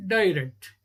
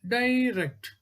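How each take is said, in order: First: Said in the usual way. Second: "Direct" stretched as di-rect; split into syllables. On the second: Shown as a demonstration. Teacher showing two syllables, "Direct" said beat by beat. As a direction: say "Direct" in two distinct beats.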